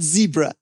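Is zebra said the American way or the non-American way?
American. Zebra is said the American way. This is how Americans name it. The speaker calls it wrong. "not zebra"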